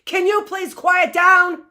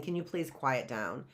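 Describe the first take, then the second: First: Loud, high, forceful command; shouted teacher's order to the class; demanding shout. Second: Softly, low and gentle, just asking; a meek, quiet request; polite soft ask. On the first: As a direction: demand it, don't ask. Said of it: "I'm demanding it". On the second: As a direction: ask it quietly, not demanding. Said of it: "I'm not really asking". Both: Shown as a demonstration.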